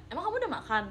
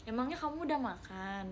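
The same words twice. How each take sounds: First: Flat plain question. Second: Soft, caring question with the added nya; tender from the heart. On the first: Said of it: "nadanya kalau kayak gitu". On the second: Viewer asking softly if someone has eaten, tenderly caring. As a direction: ask gently, like you truly care. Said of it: "dari hati lembut gitu". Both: Shown as a demonstration.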